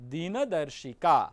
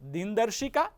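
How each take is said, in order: First: The vowel after the n is sounded. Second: The vowel after the n is dropped. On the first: The speaker calls it right. "નકાર સંપૂર્ણ છે" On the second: The speaker calls it wrong. "એની જગ્યાએ ... આવું ઉચ્ચારણ આપણે ક્યારેક કરી દેતા"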